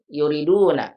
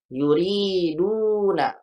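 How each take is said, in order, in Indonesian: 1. Vokal pada suku kata kedua pendek. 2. Vokal pada suku kata kedua panjang. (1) "kalau tidak ada ya-nya seperti ini ... dibacanya nggak ada ya-nya jadi yuri gini yuriduna, ini salah" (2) "Ketika kita mendengar ada huruf panjang ri, ri, ingat kembali kalau panjang"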